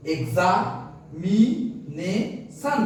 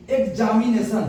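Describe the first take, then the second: First: "examination" in four slow beats, এক্সা, মি, নে, শন; split into syllables. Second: Said in the usual way. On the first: Shown as a demonstration. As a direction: pause after each syllable of "examination". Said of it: "চারবারে". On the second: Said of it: "তুমি উচ্চারণ করে দেখো".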